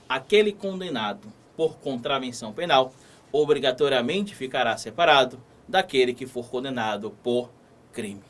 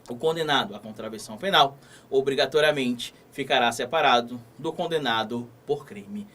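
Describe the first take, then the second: First: It is said slowly, with pauses. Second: It is said at normal speed.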